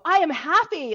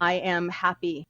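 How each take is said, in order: First: It is said with lively energy. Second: It is said flatly, without energy.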